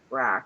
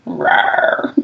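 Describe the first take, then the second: First: Low flat little growl; deadpan monster growl. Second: Low breathy mock growl; playful monster growl. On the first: Retold or imitated. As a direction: growl simply, no effort. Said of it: "very simply goes". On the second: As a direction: growl like a pretend monster to scare.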